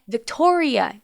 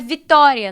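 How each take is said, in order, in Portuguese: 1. É dito com pronúncia inglesa. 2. É dito com pronúncia portuguesa. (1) "No inglês é Victoria" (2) "O meu é Vitória no português"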